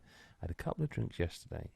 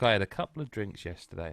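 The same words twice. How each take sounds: First: It is said with a lowered, quieter voice. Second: It is said at normal speaking volume.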